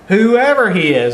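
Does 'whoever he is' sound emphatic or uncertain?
emphatic. It is said firmly, with emphatic weight. No matter how prominent the person is. "that's the tone that I read there"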